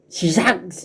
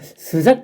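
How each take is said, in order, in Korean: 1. 첫 음절은 'i' 모음으로 발음해요. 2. 첫 음절은 'eu' 모음으로 발음해요. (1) "시작이라고 정확하게 얘기를 해야 되는데" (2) "그냥 스작 비슷하게 들려요"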